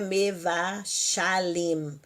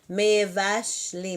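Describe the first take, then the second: First: An extra a vowel separates sh and l. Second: The sh and l sounds join with no vowel. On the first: The speaker calls it wrong. "não é mevashalim" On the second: The speaker calls it right. "Mevashlim, não é mevashalim"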